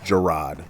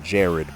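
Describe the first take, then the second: First: It sounds different from the name Jared. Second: It sounds like the common name Jared. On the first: This is the name's true form. The speaker calls it right. "but it's Jarad" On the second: This is how most people say it. The speaker calls it wrong. "I know people pronounce it Jared"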